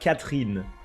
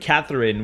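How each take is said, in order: First: The name is said with a French pronunciation. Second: The name is said with an English pronunciation. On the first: The speaker calls it right. "we pronounce it Catherine" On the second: The speaker calls it wrong. "we don't pronounce it Catherine"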